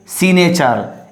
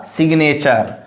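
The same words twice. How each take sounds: First: SIGNATURE without its g, "si-nature"; wrong pronunciation demo. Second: SIGNATURE with a clear g, "sig-nature"; correct sounded g. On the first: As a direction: drop the g from signature. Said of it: "so don't say signature". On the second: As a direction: voice the g before n in signature. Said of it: "it's a signature". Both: Shown as a demonstration.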